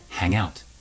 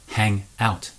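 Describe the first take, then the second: First: The two words blend into one unit. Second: The two words are said separately.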